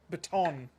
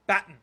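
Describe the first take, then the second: First: It uses an American pronunciation. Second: It uses a non-American pronunciation.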